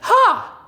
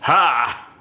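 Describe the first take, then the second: First: It is voiced in a light head register. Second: It is voiced in a full chest register. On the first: "And there's M two head" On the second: "There's M one chest"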